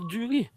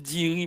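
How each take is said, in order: First: The first vowel is a rounded sound. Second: The first vowel is an unrounded 'ee' sound. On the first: This is a variant some people use. "il y a des gens qui ont droit de prononcer duri" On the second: This is the standard pronunciation. "normalement c'est diri"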